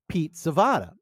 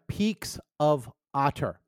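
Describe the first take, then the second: First: The words are slurred together into one run. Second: Each word is said clearly and separately.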